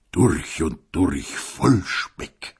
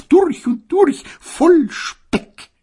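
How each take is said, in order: First: Mild mock quote. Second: High, loud sneer on durch und durch; gossipy sneer. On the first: A narrator's reading. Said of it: "wie sagte die Dickgeselchte". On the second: Acted. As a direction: drawl the durch und durch mockingly. Gossip quoted, later echoed. (hohes, spöttisches durch und durch)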